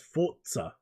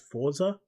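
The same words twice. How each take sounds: First: A t sound comes before the z. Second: The z is said without a t sound. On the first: The speaker calls it right. "It's got a T that isn't put there in front of between the R and the Z" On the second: The speaker calls it wrong. "I always thought it was Forza"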